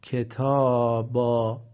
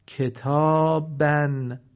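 First: کتابا slow, ending on open long "baa"; pausal long alif. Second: کتابن very slow, ending "-ban"; tanween sounded. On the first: (کتابا با الف مدی، بدون نون) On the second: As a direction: draw out کتابن, closing on the n. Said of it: "تنوین فتحه". (کتابن کشیده با تنوین فتحه) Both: Shown as a demonstration.

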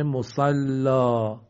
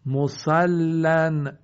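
First: مسلا slow, "musallaa" with open ending; pausal long alif. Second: مسلن very slow, "musallan"; tanween sounded. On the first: (مسلا با الف مدی، بدون نون) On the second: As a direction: hold the double l in مسلن, close on n. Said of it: "تنوین فتحه". (مسلن کشیده با تنوین فتحه) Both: Shown as a demonstration.

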